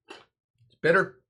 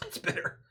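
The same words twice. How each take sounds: First: Slow, loud, stretched-out bitter; drawn-out verdict. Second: A breathy whispered aside, no voice. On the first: Host tasting Amaro, slow and loud drawn-out verdict. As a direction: savor the word bitter, dragging it out. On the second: Host tasting Amaro, repeating it in a whisper. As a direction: whisper bitter to yourself. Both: Acted.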